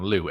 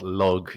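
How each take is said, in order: First: The name ends in a vowel, no g. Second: The name ends with a hard g sound. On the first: This is the Irish mythology reading. "I would call him Lu, L U G H" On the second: It sounds more barbarian. "But Lug sounds distinctly more barbarian"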